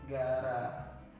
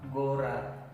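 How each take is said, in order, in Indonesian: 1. Vokal pertama terdengar seperti 'a'. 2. Vokal pertama terdengar seperti 'o'. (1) "tapi dibaca Gara" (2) "pasti ini bacanya adalah ini G O R A, Gora. Tapi tidak dibaca Gora"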